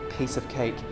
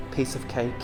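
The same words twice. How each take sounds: The two takes are said the same way.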